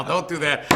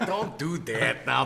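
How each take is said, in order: First: Said in the usual way. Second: Low, slow, hushed don't do that now; a lower, slower mock scold; low mock warning. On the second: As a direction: drop the voice and drag it out as a fake warning. Scolding a co-host, then repeating it.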